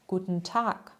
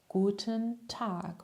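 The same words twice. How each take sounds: First: It is said quickly, more run together. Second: It is said at a normal, careful pace.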